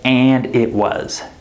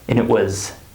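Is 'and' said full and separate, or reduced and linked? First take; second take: full; reduced. First: 'And' is said fully, separate from 'it'. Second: 'And' is reduced and linked into 'it'. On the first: The speaker calls it wrong. "We don't say" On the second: The speaker calls it right. "The word and becomes reduced"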